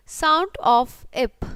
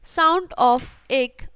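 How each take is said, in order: First: "ip" drawn out slowly, pronounced ep; sound sounded out. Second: "egg" drawn out slowly, pronounced ek; sound sounded out. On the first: ("ip" को धीरे खींचकर बोलना) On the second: ("egg" को धीरे खींचकर बोलना) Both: Shown as a demonstration.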